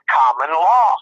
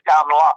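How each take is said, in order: First: It is said with more force and energy. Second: It is said plainly, with little force.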